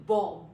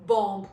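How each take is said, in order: First: Bomb said as bom, short; teacher modelling bomb; silent b. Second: Bomb said louder with the b released; teacher demonstrating the wrong bomb; wrong way, b sounded. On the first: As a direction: end bomb on the m. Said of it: "We say bomb". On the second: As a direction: show the mistake, bomb with a final b. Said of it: "We will not say". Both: Shown as a demonstration.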